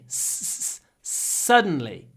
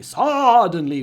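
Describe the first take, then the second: First: The first consonant is stretched out for emphasis. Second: The first vowel is stretched out for emphasis. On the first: The speaker calls it right. "We do long consonants" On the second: The speaker calls it wrong. "I don't say suddenly, suddenly with a big vowel"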